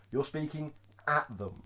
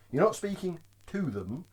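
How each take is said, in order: First: "at" stressed, falling away softer. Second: "to" set apart and stressed. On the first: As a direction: lean on the word "at". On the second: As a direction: lean on the word "to". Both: Shown as a demonstration.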